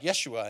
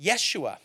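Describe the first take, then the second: First: A low, soft, lofty Yeshua, mocking a know-it-all; snooty. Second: Yeshua said slowly and softly as yeh-SHOO-ah, falling at the end; Hebrew pronunciation. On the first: Preacher mocking a snooty churchgoer, a low, soft, superior Yeshua. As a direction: look down your nose as you correct someone. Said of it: "you find a snooty person and they're like". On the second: Shown as a demonstration. Preacher teaching the congregation the Hebrew name, a soft careful yeh-SHOO-ah. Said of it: "his name is actually closer to Yeshua".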